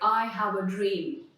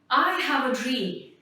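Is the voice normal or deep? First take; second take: deep; normal. First: It is said in a deep, manly voice. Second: It is said in a normal voice.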